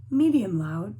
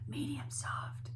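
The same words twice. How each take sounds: First: Firm, louder demonstration of the dynamic; medium loud. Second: Hushed, near-whispered demonstration; soft and breath-light, like the dynamic named; medium soft. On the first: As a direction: punch the first word out loud, then fall. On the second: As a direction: drop right down to show soft. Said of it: "mezzo piano or medium soft". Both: Shown as a demonstration.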